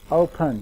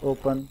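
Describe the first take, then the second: First: The first vowel glides from schwa toward oo. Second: The first vowel stays as one steady o. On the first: The speaker calls it right. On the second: The speaker calls it wrong.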